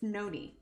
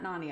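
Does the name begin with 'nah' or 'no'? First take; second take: no; nah. First: The first vowel sounds like 'no'. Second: The first vowel sounds like 'nah'. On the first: The speaker calls it right. "it's Noni" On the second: The speaker calls it wrong. "I know it's not Nani"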